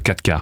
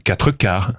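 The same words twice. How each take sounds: First: The words are clipped, with final sounds dropped. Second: Every syllable is pronounced fully and carefully. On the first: The speaker is an ordinary person. "nous, les prolos" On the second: The speaker is refined. "les enfants de Charles-Édouard, ils mangent du"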